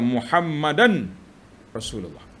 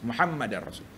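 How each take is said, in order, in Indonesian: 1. Bunyi n diucapkan sebelum r tunggal. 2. Bunyi n menyatu dengan bunyi r ganda.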